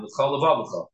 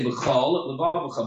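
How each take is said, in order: First: "B'chol Vavcha" joined as one word with a single l; run together. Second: "b'chol, l'vavcha" as two words, each with its own l; separated words. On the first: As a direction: slur "B'chol Vavcha" together without a break at the l. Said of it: "The way I just said it is one lamed". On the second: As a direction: finish the l of "b'chol", then start "l'vavcha" afresh. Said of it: "So you have to say". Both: Shown as a demonstration.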